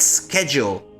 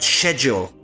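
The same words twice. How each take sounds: First: The word is pronounced the American way. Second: The word is pronounced the British way. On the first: The speaker calls it wrong. "Is it an American voice actor because he said schedule" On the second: The speaker calls it right. "and not schedule"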